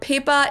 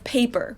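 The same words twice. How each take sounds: First: A German accent, with a straight vowel. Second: An English accent, with a gliding vowel. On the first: "or paper" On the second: "instead of paper"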